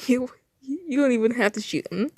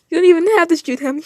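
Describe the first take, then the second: First: Said in the usual way. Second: Higher and louder American-style taunt; mocking, raised-voice read; taunting character voice. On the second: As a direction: jeer at him, pitched up and loud. Voicing China's taunt.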